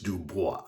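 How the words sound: The name is said the French way.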